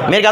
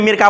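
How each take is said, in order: First: The word ends in a clear final t. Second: The final t is dropped, ending in a. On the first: The speaker calls it right. "ওয়াকফ করার পরেও কি বলেছেন? মিরকাত বলেছেন" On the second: The speaker calls it wrong. "এটাকে নাম মিরকা হয় নাই"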